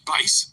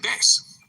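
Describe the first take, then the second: First: The vowel rhymes with face. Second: The vowel rhymes with mass. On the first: It names the musical instrument. The speaker calls it right. "instead of saying bass for guitar" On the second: It names the fish. The speaker calls it wrong. "they'll say bass, because A I is not smart like that"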